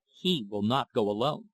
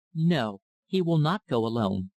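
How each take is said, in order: First: Said in the usual way. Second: Mildly thoughtful, deliberate echo; thoughtful repetition. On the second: A narrator's reading. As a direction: repeat it as if weighing it. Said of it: "slowly repeated Missus Almayer, with a thoughtful air".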